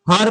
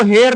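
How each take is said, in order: First: हर with a short neutral vowel; correct reading of "her". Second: हेर with a long "e", like "hair"; wrong reading of "her". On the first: Teacher shows class how to read HER, short vowel. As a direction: say हर as a short "hur". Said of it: "हर पढ़ना". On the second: Teacher warns class against misreading HER, long e vowel. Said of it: "इसको हेर नहीं पढ़ना". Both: Shown as a demonstration.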